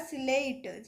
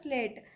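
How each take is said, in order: First: An extra vowel splits the s and l. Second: The s and l are joined without a vowel. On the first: The speaker calls it wrong. "सिलेट नहीं बोलना है ना" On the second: The speaker calls it right. "यहाँ पर होगा आपका स्लेट"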